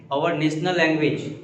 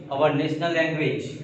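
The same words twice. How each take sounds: The two takes are said the same way.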